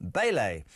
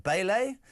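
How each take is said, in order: First: Bailey. settled with a low falling tune; Bailey. dropped low and final; falling statement. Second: Bailey? said with a rising question tune; Bailey? with an upward lift; rising query. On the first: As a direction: confirm the name flatly. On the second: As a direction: try the name as a question. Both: Shown as a demonstration. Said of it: "Martin Bailey".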